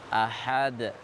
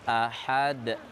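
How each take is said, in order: No difference in how they are said.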